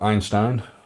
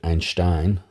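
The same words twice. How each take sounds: First: The name is said with an English pronunciation. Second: The name is said with a German pronunciation.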